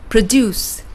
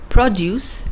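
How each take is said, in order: First: Pro-DUCE, the verb; light "pro", land on "DUCE" in "produce"; stress on second syllable. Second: PROD-uce, the noun; stress on first syllable. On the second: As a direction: punch the "PROD" of "Produce", light second syllable. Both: Shown as a demonstration. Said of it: "according to your syllable stress pattern".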